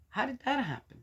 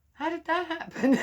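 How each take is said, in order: First: Mildly puzzled higher question; a light hint of bewilderment. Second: Hammed-up, much higher and louder; mock bewilderment. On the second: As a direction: play up the baffled outcry. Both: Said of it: "I just sometimes go".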